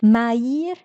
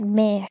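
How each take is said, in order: First: The vowels are split into two syllables. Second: The vowels merge into a single syllable. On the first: The speaker calls it wrong. "On pourrait penser, en étant enfant, de prononcer Maïr" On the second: The speaker calls it right. "mais on dit bien maire"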